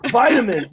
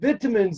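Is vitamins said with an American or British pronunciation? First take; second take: American; British. First: It has an American pronunciation. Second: It has a British pronunciation. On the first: "it's so angry and aggressive" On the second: "way more like subtle and gentle"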